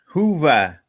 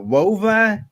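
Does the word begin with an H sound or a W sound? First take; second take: H sound; W sound. First: The word begins with an H sound. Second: The word begins with a W sound. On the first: "Hova is how I believe it's said" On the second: "people were calling it Wova"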